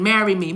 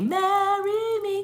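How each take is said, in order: First: Said in the usual way. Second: High, slow sung marry me. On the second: Pretend. Reader sings the title to viewers, slow and high. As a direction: croon it long and soft. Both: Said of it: "Train, marry me".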